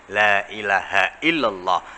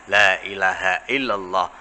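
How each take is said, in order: The two takes are said the same way.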